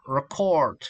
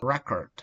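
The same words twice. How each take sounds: First: "record" stressed on the second syllable; weak start, then land on the end of "record"; "record" said as the verb, stress on the last syllable. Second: "record" stressed on the first syllable; "record" with a strong opening syllable, weak ending. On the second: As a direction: hit the start of "record", as in the noun. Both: Shown as a demonstration. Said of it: "incorrect stress can change the meaning".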